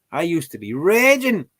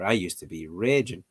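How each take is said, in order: First: Louder, higher mock fury at the app; hamming up being furious; mock rage. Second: Said in the usual way. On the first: Shown as a demonstration. Vlogger mocking her own rage at Duolingo, louder.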